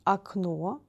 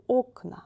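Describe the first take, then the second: First: Окно stressed on final о, first vowel like a; stress on last O. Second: Окна stressed on the initial о; stress on first O. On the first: Teacher gives the singular, final stress. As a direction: say akNO, weight on the end. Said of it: "the last letter O is stressed". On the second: Teacher gives the plural of окно, first-vowel stress. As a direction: say OKna, weight on the first vowel. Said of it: "The first vowel is stressed". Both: Shown as a demonstration.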